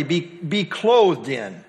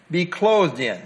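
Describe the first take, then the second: First: Clothed drawn out slowly with a falling stress; slow, stressed rendering. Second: Said in the usual way. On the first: Shown as a demonstration. Teacher explaining the literal meaning to the class, slowly and with weight. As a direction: give the literal sense slowly, leaning on clothed.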